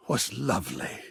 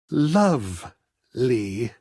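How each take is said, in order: First: Said in the usual way. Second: A slow, savoring repeat of Lovely; dreamy echo. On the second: Acted. Artist savoring time spent talking, slow dreamy echo. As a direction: let Lovely melt out slowly, wistful.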